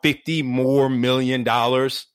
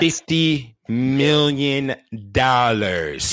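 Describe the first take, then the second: First: It is said in his normal voice. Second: It is said in a Doctor Evil voice.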